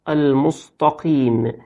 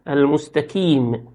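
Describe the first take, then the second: First: The middle consonant is a deep throaty q. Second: The middle consonant is a plain k. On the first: The speaker calls it right. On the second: The speaker calls it wrong.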